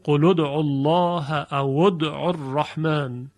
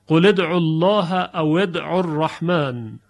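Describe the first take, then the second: First: قل ادعوا الله said as qul-u d'u, the lam of قل with a short u; the lam of قل takes a rounded u, and او ادعوا becomes aw-u d'u; damma instead of kasra. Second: قل ادعوا الله said as qul-i d'u, the lam of قل with a kasra "i"; the lam of قل carries a short i that links into ادعوا; Hafs reading with kasra. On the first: Teacher shows the dialect reading with damma instead of kasra. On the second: Teacher models the Hafs reading for students, lam with kasra. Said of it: "لام رو به کسره میاریم". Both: Shown as a demonstration.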